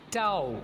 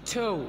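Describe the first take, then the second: First: The vowel glides like 'ow'. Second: The vowel is a plain 'oh'. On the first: The speaker calls it wrong. "बहुत सारे students गलत बोलते हैं, ऐसे बोलते हैं टाओ" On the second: The speaker calls it right. "This is टो"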